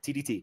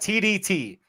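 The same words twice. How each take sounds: First: The letters are said quickly, run together. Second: The letters are said at a normal speed.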